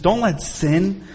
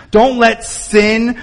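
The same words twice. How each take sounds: First: "Don't let sin" dropped low and soft, drawn out; soft slow plea. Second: "don't let sin" back at full voice, each word slowed and weighted; firm slow emphasis. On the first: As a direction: murmur "Don't let sin" slowly, almost to yourself. Repeated plea, first take. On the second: Repeated plea, second take. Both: Acted.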